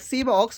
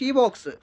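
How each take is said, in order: First: The first word begins with an s sound. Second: The first word begins with an sh sound. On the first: The speaker calls it wrong. "Not ಸಿ box" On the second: The speaker calls it right. "It is a ಶಿ box"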